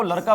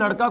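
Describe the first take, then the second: First: लड़का pronounced "laraka". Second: Said in the usual way. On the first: Retold or imitated. Teacher quoting the girl's single word, लड़का with r. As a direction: put r for ड़ in लड़का. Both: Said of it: "ड के स्थान पर र".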